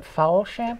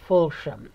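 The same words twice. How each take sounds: First: Host asking about guest's surname, tries "Falsham" with an open "a"; "Falsham" said with an open "a" in the first syllable, like "fall". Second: Host getting it right: "Fulsham" with the "u" of "full"; "Fulsham" said "FULL-shum", settling down at the end; corrected pronunciation. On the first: Say "Falsham" first syllable "fall", then "shum". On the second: Host repeating the guest's surname back to her correctly as "Fulsham". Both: Shown as a demonstration. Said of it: "is it Falsham or Ful".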